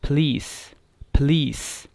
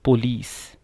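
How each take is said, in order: First: पुलिस squeezed to "p'LEES", stress on the end; correct pronunciation. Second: पुलिस as "po-lees", a full first vowel; common mispronunciation. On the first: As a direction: model पुलिस with barely any first vowel. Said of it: "correct pronunciation क्या है". (पुलिस का सही उच्चारण, "प्लीस") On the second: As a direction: say पुलिस with a clear "po". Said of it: "मिसप्रोनाउंस्ड version है". (पुलिस का गलत उच्चारण, "पोलीस") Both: Shown as a demonstration.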